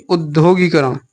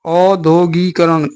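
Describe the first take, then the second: First: उद्योगीकरण starting on short u; corrected opening. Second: औद्योगीकरण with a drawn-out au; wrong opening. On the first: Teacher correcting students, उद्योगीकरण with short u. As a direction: open उद्योगीकरण with a quick u. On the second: Teacher rejecting a form, औद्योगीकरण with slow long au. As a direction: slowly stretch the au starting औद्योगीकरण. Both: Shown as a demonstration. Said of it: "नहीं".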